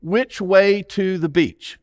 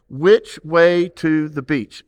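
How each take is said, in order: First: Said in the usual way. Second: Muffled through a hand over the mouth. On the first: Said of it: "say this with me". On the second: Shown as a demonstration. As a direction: speak through your palm, slowly. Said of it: "Put your hand over your mouth".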